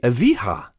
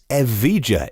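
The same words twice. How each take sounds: First: The J is sounded as a Spanish J. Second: The J is sounded as an English J.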